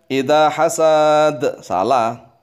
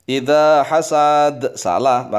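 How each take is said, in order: Both takes have the same delivery.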